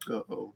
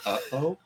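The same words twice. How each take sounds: First: It sounds calm and unconcerned. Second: It sounds more worried and concerned.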